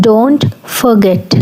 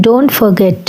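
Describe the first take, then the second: First: Stretched out, each word spaced for learners; slow drill. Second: Said in the usual way. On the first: Shown as a demonstration. Teacher modelling a phrase for learners, very slowly. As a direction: say it very slowly so students can copy. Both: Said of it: "మర్చిపోకు".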